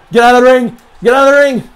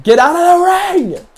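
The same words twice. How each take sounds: First: High, loud desperate yell; shouting. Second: High, slow shouted order; yelling. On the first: Player screaming as the match turns, shouting. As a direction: scream it in panic. Gamer yelling, losing match. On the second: Gamer yelling at the wrestler to leave, loud. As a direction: yell it at the screen. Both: Real, not acted.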